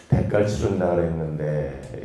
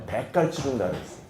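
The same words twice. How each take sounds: First: Put-on guilty child thinking on the way home; worried inner voice. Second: Quick, softer knowing remark with 대가를 stressed; sly quiet reminder that 대가를 was promised; knowing aside. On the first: Child worries about broken promise. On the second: A narrator's reading. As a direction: drop the voice and hurry through, leaning on 대가를. Preacher's knowing punchline.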